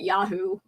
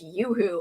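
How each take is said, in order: First: The first syllable sounds like 'ya'. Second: The first syllable sounds like 'yoo'. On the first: The speaker calls it wrong. "I used to call it Yahoo! 'Cause I didn't, uh I didn't know about the pronunciation" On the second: The speaker calls it right. "No, it's Yoo-Hoo"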